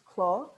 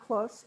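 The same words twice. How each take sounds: First: The final S sound is silent. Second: The final S sound is pronounced. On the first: The speaker calls it right. "We don't pronounce the S" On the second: The speaker calls it wrong. "So it's not clos"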